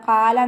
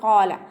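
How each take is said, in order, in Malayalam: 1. ആദ്യ വ്യഞ്ജനം ലഘുവാണ്, നാവ് ഉയർത്താതെ. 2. ആദ്യ വ്യഞ്ജനം കനത്തതാണ്, നാവിന്റെ പിൻഭാഗം ഉയർത്തി. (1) "ഖാല എന്നായി പോവരുത്" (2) "തഫ്വീം ചെയ്ത് കൊടുക്കുക"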